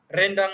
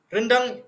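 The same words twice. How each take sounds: First: "rendang" with an open e as in bed, meaning leafy; rendang with e taling. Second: "Rendang" with a schwa in the first syllable. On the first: ("rendang" dengan e taling) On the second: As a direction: say "Rendang" with a weak e, for the dish. ("Rendang" dengan e pepet) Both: Shown as a demonstration. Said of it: "dengan sebutan yang berbeza".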